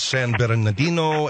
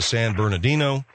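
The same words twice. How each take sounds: First: The name has a Spanish pronunciation. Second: The name has an English pronunciation. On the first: "I've heard Spanish people or Mexican people or Latin people pronounce" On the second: "as opposed to"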